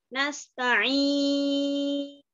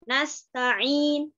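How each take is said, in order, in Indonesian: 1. Vokal panjang ditahan enam harakat. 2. Vokal panjang ditahan dua harakat. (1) "yang enam harokat" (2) "dengan uh, dua harokat"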